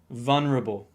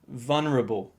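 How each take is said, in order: First: The third syllable is reduced and very weak. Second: The third syllable is reduced and very weak.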